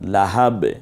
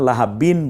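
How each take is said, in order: First: The word ends on a bare consonant. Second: The word ends with an added 'in' sound. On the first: The speaker calls it right. "থামার কারণে শুধু লাহাব বলতে হয়" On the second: The speaker calls it wrong. "লাহাবিন বলবো না"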